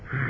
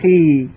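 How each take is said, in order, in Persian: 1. این صدا کوتاهه و سریع قطع میشه. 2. این صدا کشیده است و طول میکشه. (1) "برای صدای پایین خ و خی" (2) "برای صدای پایین خ و خی"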